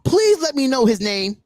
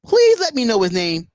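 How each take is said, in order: First: Said in the usual way. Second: "Please" pushed louder, the request repeated with more force. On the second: Real, not acted. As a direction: press harder, louder on "Please".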